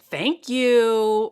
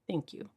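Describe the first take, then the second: First: It is said in an odd, exaggerated way. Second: It is said in a plain, calm way. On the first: The speaker is uncomfortable accepting the compliment. The speaker calls it wrong. "Don't be out here saying thank you in any crazy ways now" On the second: The speaker simply accepts the compliment. The speaker calls it right. "Give a normal, intentional thank you. Just like that"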